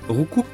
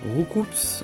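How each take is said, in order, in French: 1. Le s final ne se prononce pas. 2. Le s final se prononce.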